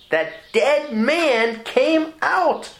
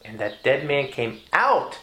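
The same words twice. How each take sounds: First: Much higher, very slow and drawn out; preacher's soaring repeat; exultant proclamation. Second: Said in the usual way. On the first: Shown as a demonstration. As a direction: stretch every word in triumph.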